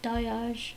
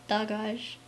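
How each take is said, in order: First: The middle consonant is a Y sound. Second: The middle consonant is a hard G. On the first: "I tend to pronounce it Dayaj, uh, without that hard hard G" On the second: "It's really pronounced Dagaj"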